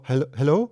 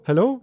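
First: Said in the usual way. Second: High rising hello?, louder; questioning call. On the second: Retold or imitated. Alone at the barrier, calling hello? high and rising. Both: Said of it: "dann war Stille und dann war ich so".

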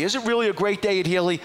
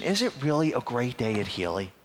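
First: High-pitched, pressing question; insistent questioning. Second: Said in the usual way. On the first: Retold or imitated. Caller repeating his question to a silent receptionist, insistent. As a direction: demand an honest answer.

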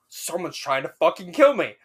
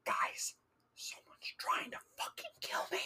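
First: Panicked outburst, retold with a rise. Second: Urgent hushed whisper; frantic whisper. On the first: Student alone reacting to the pounding door, panicked. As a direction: retell your alarm, voice jumping up. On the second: Retold or imitated. Student waking roommates in their room, frantic whisper. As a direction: whisper it as a panicked warning. Panicked warning to sleeping roommates.

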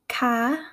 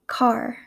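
First: "car" with the r dropped; East Coast pronunciation. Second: "car" with a full final r; Midwestern pronunciation. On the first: Teacher contrasting accents, "car" said East Coast as "cah". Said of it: "in an East Coast accent". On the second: Teacher contrasting accents, "car" said Midwestern with full r. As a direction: say "car" as "carr". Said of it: "in my Midwestern accent". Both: Shown as a demonstration.

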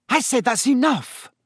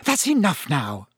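First: High, sharp scolding; exasperated order. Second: Said in the usual way. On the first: Acted. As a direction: cut off the nonsense, out of patience. Mother repeats order, losing patience.

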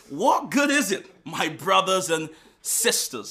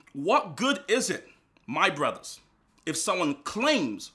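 First: 1 louder rereading. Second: Said in the usual way. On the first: Shown as a demonstration. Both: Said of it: "I'll read it again".

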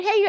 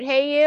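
First: Said in the usual way. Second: "Hey, you" lifted higher and louder, cutesy; a flirty little "Hey, you". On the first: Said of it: "was it a cute". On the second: Shown as a demonstration. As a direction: coo "Hey, you" sweetly. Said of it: "Was it a cute".

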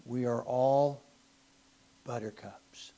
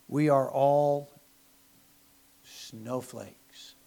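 First: Mocking whisper. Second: Mock dramatic pause. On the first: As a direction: breathe it out as a sarcastic aside. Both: Mocking modern culture.

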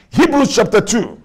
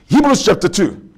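Both takes have the same delivery.

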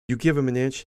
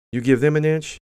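First: Said in the usual way. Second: "them" punched high and loud; stress on THEM. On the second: Real, not acted. Contrasting Republicans with Democrats, stress thrown on "them". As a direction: lean hard on "them" to mark the contrast.

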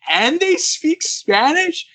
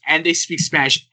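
First: Much higher, slow disbelieving question; stunned, stretched-out repeat; incredulous. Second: Said in the usual way. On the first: Real, not acted. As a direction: echo it back in utter amazement. Repeating her words in disbelief. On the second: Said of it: "and she goes".

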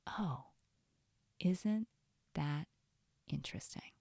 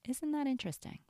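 First: Detached curiosity. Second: Higher, in one connected phrase; curious noticing. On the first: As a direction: muse word by word, softly trailing away. Models curious noticing of the voice. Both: Shown as a demonstration.

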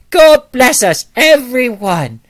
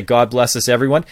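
First: Put-on high, loud little-boy British accent; British Tiny Tim. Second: Said in the usual way. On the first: Young boy auditioning as Tiny Tim, high, loud British accent. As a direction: belt it out slowly as a British child at an audition. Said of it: "can you do a British accent". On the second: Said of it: "Okay, can you say".

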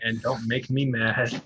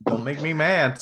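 First: Slow gruff toy voice line; like a talking toy catchphrase; gruff tinny action figure. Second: Higher, hammed-up toy catchphrase; gruff tinny action figure. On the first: Retold or imitated. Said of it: "as his action figures used to say". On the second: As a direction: echo the figure's line playfully.

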